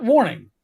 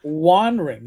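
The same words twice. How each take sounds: First: Said in the usual way. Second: Wandering said as WAN-RING, lower and deliberate; Wandering read literally, N before the R; mocking misspelled pronunciation. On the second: Shown as a demonstration. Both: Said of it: "not warning".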